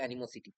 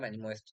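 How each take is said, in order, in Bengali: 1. শব্দটি 'sity' ধ্বনি দিয়ে শেষ হয়। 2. শব্দটি 'est' ধ্বনি দিয়ে শেষ হয়। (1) "এটার আসল আসল উচ্চারণ এটাই হবে" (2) "আমি বলতাম অ্যানিমোয়েস্ট"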